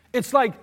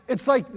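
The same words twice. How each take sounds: The two takes are said the same way.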